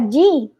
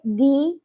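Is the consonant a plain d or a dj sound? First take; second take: dj; d. First: The consonant is a soft dj sound. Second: The consonant is a plain, hard d. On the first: The speaker calls it wrong. "é como se pra gente fosse uma, um G,... como se for um Y" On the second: The speaker calls it right. "a gente aprende assim"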